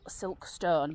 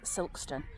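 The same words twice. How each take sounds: First: The name is said just as it is spelt. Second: The name is said in the local way. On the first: "it's spelt Sil Silkstone" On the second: "it's pronounced Silkstone locally"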